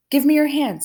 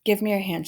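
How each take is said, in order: First: Firmer repeat. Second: Said in the usual way. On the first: A narrator's reading. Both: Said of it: "said Flora again".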